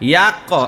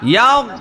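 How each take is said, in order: First: The word ends in a hard, bouncing k sound. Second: The word ends in a soft voiced gh sound. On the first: The speaker calls it wrong. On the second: The speaker calls it right.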